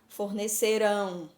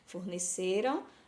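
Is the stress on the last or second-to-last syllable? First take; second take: last; second-to-last. First: The stress is on the last syllable. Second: The stress is on the second-to-last syllable. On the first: The action will happen in the future. "olha como tá no futuro, a sílaba mais forte é a última" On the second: The action happened in the past. "quando eu tenho o verbo no passado, a sílaba forte é a penúltima"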